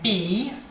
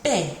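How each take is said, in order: First: The letter is said with English pronunciation. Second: The letter is said with French pronunciation. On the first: "In English we say B" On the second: "In French they say B"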